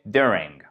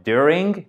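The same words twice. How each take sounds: First: "during" with the accent on the first syllable, DU-ring; "during", first syllable longer and stronger than the second; stress on first syllable. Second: "during" with the accent moved onto the second syllable, du-RING; "during" wrongly accented on its last syllable; wrong syllable stressed. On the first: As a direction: hit the start of "during" and let -ing fall. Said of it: "mais c'est during". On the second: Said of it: "Donc, c'est pas during". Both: Shown as a demonstration.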